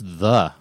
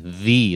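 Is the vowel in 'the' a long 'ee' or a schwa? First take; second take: schwa; long ee. First: The word ends in a short schwa vowel. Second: The word ends in a long 'ee' vowel. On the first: "It's a schwa sound"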